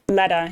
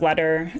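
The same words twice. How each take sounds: First: The final R sound is dropped. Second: The final R sound is pronounced. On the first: "you drop like the final R on a word, like you know you'd say letter" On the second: "instead of letter"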